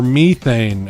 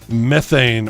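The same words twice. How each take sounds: First: It is said with an Australian accent. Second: It is said with a non-Australian accent.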